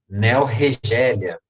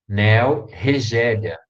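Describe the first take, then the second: Both takes have the same delivery.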